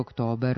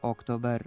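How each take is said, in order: First: A long rising accent falls on the second syllable. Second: The accent falls on the first syllable. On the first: The speaker calls it wrong. "Pogrešni su oblici sa dugouzlaznim akcentom na drugom slogu" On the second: The speaker calls it right. "akcenat je na prvom slogu"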